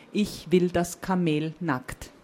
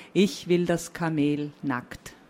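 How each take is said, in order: Both takes have the same delivery.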